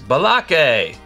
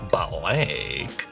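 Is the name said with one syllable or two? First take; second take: two; one. First: The name is stretched into two syllables. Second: The name is said as one syllable. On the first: A barista gets the customer's name wrong. The speaker calls it wrong. "mispronouncing the names" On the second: The customer states the real name. The speaker calls it right. "it's Blake"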